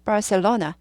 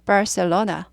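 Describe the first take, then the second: First: It is said with English sounds and a curled r. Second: The same.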